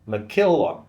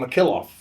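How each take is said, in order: First: The name is pronounced carefully and deliberately. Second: The name is pronounced casually, in a different way. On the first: The speaker calls it right. "if I focus" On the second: The speaker calls it wrong. "I've been saying McKillop when I just say it"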